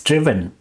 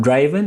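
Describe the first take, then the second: First: "driven" with a short i, "drih-ven"; "driven" as "drivv-en", short first vowel; correct driven. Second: "driven" with the vowel of drive, "dry-ven"; "driven" with a long i, as in "drive"; mispronounced driven. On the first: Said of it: "it's driven". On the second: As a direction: say "driven" wrongly as "draiven". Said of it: "Yes, it's not driven". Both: Shown as a demonstration.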